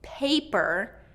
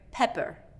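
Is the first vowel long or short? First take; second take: long; short. First: The first vowel is a long A. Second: The first vowel is short. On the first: The speaker calls it right. "paper with a long A" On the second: The speaker calls it wrong. "I'm hearing pepper"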